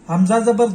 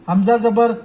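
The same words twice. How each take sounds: The two takes are said the same way.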